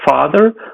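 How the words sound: The first sound is a voiceless f. This is the northern and standard form. "we would not hear something like father"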